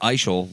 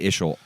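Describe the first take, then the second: First: The first vowel is a long I sound. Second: The first vowel is a short I sound. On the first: The speaker calls it right. "long I" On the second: The speaker calls it wrong. "people say Ishel all the time"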